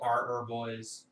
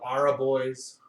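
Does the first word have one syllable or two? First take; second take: one; two. First: The first word has one syllable. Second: The first word has two syllables. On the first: This is how the speaker says it. "I call them" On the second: Some other people say it this way. "Some people call them"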